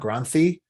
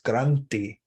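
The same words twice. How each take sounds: First: The middle consonant is an English th sound. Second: The middle consonant is a t with breath. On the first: The speaker calls it wrong. "they're usually not granthi" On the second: The speaker calls it right. "it's granthi with a h in there"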